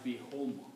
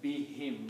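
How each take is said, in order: First: The second syllable has a u vowel: hum. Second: The second syllable has an i vowel: him. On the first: The speaker calls it wrong. "not be whom" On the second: The speaker calls it right. "for easy pronunciation, we pronounce as be him"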